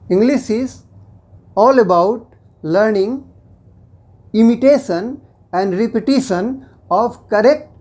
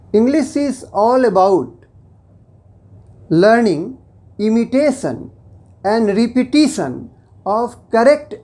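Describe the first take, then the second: No difference in how they are said.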